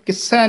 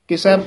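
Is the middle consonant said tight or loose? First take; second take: tight; loose. First: The middle consonant is said tight and held. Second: The middle consonant is said soft and loose. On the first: The speaker calls it wrong. "ਇਹਨੂੰ ਕਿਸੈ ਨਹੀਂ ਕਹਿਣਾ ਹੈ" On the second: The speaker calls it right. "ਕਿਸੈ ਪੋਲਾ ਹੀ ਉਚਾਰਨ ਕਰਨਾ"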